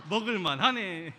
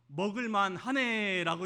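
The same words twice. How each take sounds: First: "먹을만 하네" said slowly, loud, through a laugh; laughing repeat. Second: A blunt, offhand "먹을만 하네", slowed and a bit louder; curt understatement. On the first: Shown as a demonstration. Pastor re-enacting his reply to his wife, laughing. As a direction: laugh at your own gruff "먹을만 하네". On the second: Retold or imitated. Husband answering his wife about dinner, curt and offhand. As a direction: toss off "먹을만 하네" like a gruff, shy husband. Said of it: "전 이렇게 말했습니다".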